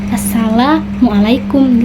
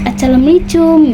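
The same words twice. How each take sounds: First: The greeting is pronounced clearly and fully. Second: The greeting is pronounced sloppily and unclearly. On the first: The speaker calls it right. "kita mengajarinya secara assalamualaikum gitu" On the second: The speaker calls it wrong. "jangan kayak dia assalamualaikum gitu"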